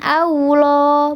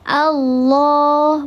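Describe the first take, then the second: First: The vowel is rounded with a w-like sound. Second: Full, heavy vowel with no w-like sound. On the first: The speaker calls it wrong. "bukan Allah, tidak ada wawunya di situ" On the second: The speaker calls it right. "dibacanya tebal, di pangkal, pangkal lidahnya diangkat"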